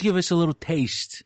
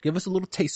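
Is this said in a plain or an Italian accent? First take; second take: Italian; plain. First: It is said in a put-on Italian accent. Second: It is said in the speaker's normal accent.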